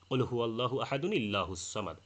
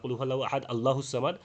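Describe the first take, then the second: First: A linking n joins ahad smoothly to illahu. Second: Allahu starts with a glottal stop, no linking n. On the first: It is a plain statement about God. The speaker calls it right. "তেলাওয়াতের সময় বলতে হবে অসল অবস্থায়" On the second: It turns the phrase into a doubting question. The speaker calls it wrong. "একটানে পড়ার সময় তাহলে এখানে কিন্তু একটা মারাত্মক ভুল হবে"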